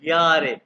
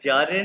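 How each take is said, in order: First: The word begins with a y sound. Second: The word begins with a j sound. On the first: The speaker calls it right. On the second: The speaker calls it wrong. "ये जे को जारे नहीं कहना"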